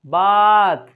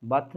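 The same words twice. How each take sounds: First: "बात" loud, with a long open आ; wide-mouthed आ. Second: "बात" soft and short; quick, low-key "बात"; unaccented short take. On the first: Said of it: "बल्कि". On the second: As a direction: say "बात" casually, vowel not stretched. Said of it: "नहीं बोल रहे हैं". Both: Shown as a demonstration.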